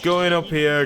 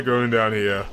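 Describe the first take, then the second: First: Voice going up. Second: Voice going down. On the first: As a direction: pitch lifted up and slowed down. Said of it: "from me, like, going up here". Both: Shown as a demonstration.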